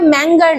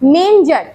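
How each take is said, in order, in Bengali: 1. মাঝের ব্যঞ্জনবর্ণটি hard g ধ্বনি। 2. মাঝের ব্যঞ্জনবর্ণটি সফট j ধ্বনি। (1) "ম্যাঙ্গার নয়" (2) "উচ্চারণ হচ্ছে মেঞ্জার"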